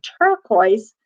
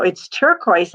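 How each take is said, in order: First: "Turquoise?" with a rising tune; puzzled question. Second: "It's turquoise" with a falling tune; flat statement. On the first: Echoing the odd colour to herself, puzzled and rising. Retold discovery, puzzled echo. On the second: Noticing the colour of the spot while walking the dog, stated flatly. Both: Retold or imitated.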